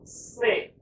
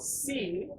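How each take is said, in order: First: The letter is said with a French pronunciation. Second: The letter is said with an English pronunciation. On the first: "as opposed to French, you go say" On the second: "in English, you go see"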